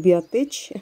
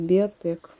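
First: The word ends with a 'ch' sound. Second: The word ends with a 'k' sound. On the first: The speaker calls it wrong. "Не Биотеч" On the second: The speaker calls it right. "правильно, девочки, надо говорить Биотек"

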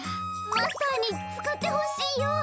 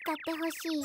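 First: It is said pleadingly, with strong feeling. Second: It is said plainly, with little feeling.

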